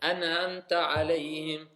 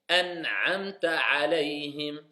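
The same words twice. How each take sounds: First: The throat sound 'ayn is not heard. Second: The throat sound 'ayn is clearly heard. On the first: The speaker calls it wrong. "On n'entend pas l'aïn" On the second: The speaker calls it right. "C'est pas pareil"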